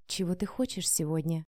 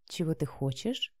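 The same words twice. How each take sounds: First: Low, soft purring question; sultry voice. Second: Very soft low coo. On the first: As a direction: tempt him gently. Vika sultry on phone. (томно и тихо) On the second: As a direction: purr the question sweetly. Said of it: "проворковала Вика". (проворковать нежно) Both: A narrator's reading.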